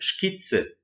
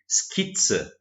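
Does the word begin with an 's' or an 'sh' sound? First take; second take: sh; s. First: The word begins with an 'sh' sound. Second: The word begins with an 's' sound. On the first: The speaker calls it wrong. "a gente não pronuncia Skizze" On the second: The speaker calls it right. "a gente pronuncia Skizze"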